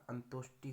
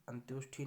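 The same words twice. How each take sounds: First: अंतोष्टि ending in unaspirated टि; correct pronunciation. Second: अंत्योष्ठी ending in aspirated ठी; wrong pronunciation. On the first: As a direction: say अंतोष्टि as "antoshti", no puff. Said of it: "होता है". (अंतोष्टि के अंत में टि बोलें, ठी नहीं) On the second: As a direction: say अंत्योष्ठी as "antyoshthi", with a puff. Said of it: "नहीं होता". (अंत्योष्ठी के अंत में महाप्राण ठी बोलें) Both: Shown as a demonstration.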